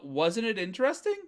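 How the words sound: It sounds like a genuine, open question. The speaker is asking for the other person's opinion. "That's a ka"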